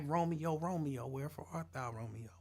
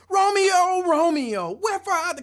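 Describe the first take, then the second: First: It is said in a normal speaking voice. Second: It is said loudly, projected like on stage.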